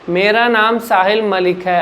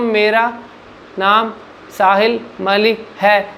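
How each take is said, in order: First: It is said at normal, flowing speed. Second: It is said slowly and unnaturally.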